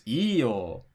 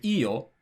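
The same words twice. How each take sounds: First: "iyo" drawn out with a big rise and fall; second intonation of iyo. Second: "iyo" short, with a small pitch movement; first intonation of iyo. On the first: Contrasting two opposite meanings by intonation, "iyo" stretched with swooping pitch. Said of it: "Those have totally opposite meanings". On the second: Contrasting two opposite meanings by intonation, "iyo" said short. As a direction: say "iyo" briefly, without drawing it out. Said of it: "the difference between saying". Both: Shown as a demonstration.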